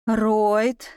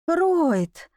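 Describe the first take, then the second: First: Measured call, lifting at the end; calling by name. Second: Higher second call with falling tune; insistent calling. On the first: Woman calling the duke to draw his attention, rising call. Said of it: "Я звала герцога по имени". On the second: Woman calling the duke again, insistent higher call. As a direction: call higher, letting it fall away. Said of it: "стараясь переключить внимание на себя". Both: A narrator's reading.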